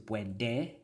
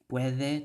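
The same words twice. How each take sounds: First: The middle consonant is a hard d sound. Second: The middle consonant is a soft th sound. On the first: This is the adapted Cebuano form. "a hard d" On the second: This is the original Spanish form. "So a the to a duh"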